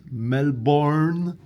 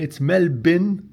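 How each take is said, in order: First: Melbourne drawn out as "mel-BORN"; mispronunciation demo. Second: Melbourne said as "MEL-bin"; correct local pronunciation. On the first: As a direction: slowly give Melbourne a full "born" ending. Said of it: "not Melbourne". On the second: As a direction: clip the end of Melbourne to a short "bin". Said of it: "that's wrong. It's Melbourne". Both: Shown as a demonstration.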